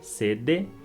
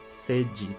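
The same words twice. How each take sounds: First: The d is a plain d sound. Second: The d is affricated, sounding like j. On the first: This follows the written letters. "a gente escreve D E, sede" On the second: This is how it is usually spoken. "mas a gente pronuncia sede"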